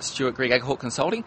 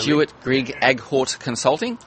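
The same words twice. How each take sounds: First: It is said at normal conversational speed. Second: It is said slowly and carefully.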